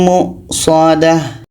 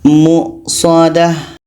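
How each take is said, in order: Both takes have the same delivery.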